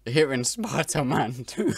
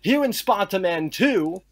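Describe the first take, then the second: First: Slow, mocking copy of a British accent; mimicking a British accent. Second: Mock British accent. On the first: Co-host parrots his friend's accent to mock it. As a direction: slowly parrot the line in a fake British accent.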